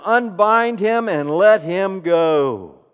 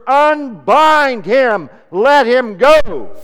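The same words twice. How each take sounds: First: Louder, slow and firm; commanding. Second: Very loud, high and very slow; thundering command. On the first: Jesus ordering the crowd to free Lazarus, firm slow command. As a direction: give the order with authority. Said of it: "And Jesus said to them". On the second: Jesus commanding the grave clothes off, thundering slow shout. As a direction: hurl the command out over the crowd. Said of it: "Jesus spoke the words". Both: Acted.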